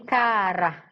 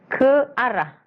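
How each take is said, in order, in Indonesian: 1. Vokal-vokal menyatu menjadi satu suku kata. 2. Kedua vokal diucapkan sebagai suku kata terpisah.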